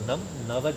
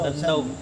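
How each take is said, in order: First: The m is kept, and the two words stay separate. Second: The m merges into a doubled n, joining the words. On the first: The speaker calls it right. "જુદો બોલવાનો છે" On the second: The speaker calls it wrong. "ઘણા લોકો"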